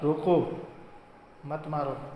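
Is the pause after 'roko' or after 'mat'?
after roko. The pause comes after 'roko', meaning don't hit.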